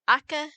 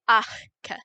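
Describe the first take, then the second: First: The k sound has no puff of air before it. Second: A small puff of air comes before the k. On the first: The speaker calls it wrong. "it's not aka" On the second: The speaker calls it right. "it's achka"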